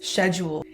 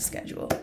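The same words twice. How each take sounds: First: The word begins with an 'sh' sound. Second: The word begins with an 'sk' sound. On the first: The speaker calls it right. "it kind of seems like it should be pronounced schedule. It's S C H, it's not S K" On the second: The speaker calls it wrong. "I don't even know why we pronounce it schedule"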